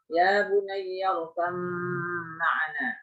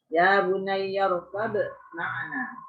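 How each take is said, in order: First: The b sound merges fully into the m. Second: The b sound is pronounced clearly before m. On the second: "Kalau izhar ya berarti kol-kolahnya kelihatan"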